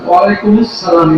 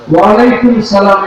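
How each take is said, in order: First: An 'us' syllable links 'alaikum' into 'salam'. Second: 'Alaikum' runs straight into 'salam' with no 'us'. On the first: The speaker calls it right. "এটা সঠিক" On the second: The speaker calls it wrong. "এটা হচ্ছে ভুল"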